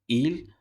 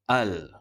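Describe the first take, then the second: First: The word starts with an i vowel. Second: The word starts with an a vowel. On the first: The speaker calls it wrong. "tidak boleh disebut dengan sebutan berbaris bawah" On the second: The speaker calls it right. "dibunyikan dengan sebutan berbaris atas"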